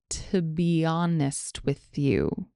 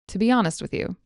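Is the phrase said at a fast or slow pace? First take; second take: slow; fast. First: The phrase is spoken slowly and carefully. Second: The phrase is spoken at normal conversational speed. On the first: "Here it is slowly" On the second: "Here it is again at normal speed"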